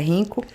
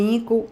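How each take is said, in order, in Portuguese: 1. O nome começa com um som soprado, parecido com h. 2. O nome começa diretamente com um som de vogal. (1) "mas o certo é Rinco" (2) "eu digo Inco"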